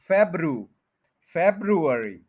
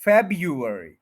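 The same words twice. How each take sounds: First: फेब्रू, then February as FEB-ru-er-ee; R variant. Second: February as FEB-yu-er-ee, firm on FEB; a y and no first r in February; Y variant. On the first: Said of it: "अगर आर लेना है इस जगह पे". (February, आर के साथ) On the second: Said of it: "ये बनेगा". (February, वाई के साथ) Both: Shown as a demonstration.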